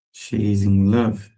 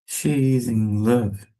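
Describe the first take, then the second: No difference in how they are said.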